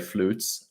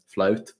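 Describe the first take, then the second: First: The vowel is an oo sound, as in flute. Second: The vowel is an ow sound, as in flout. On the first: The speaker calls it right. "you actually say flutes" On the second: The speaker calls it wrong. "and not um, flout"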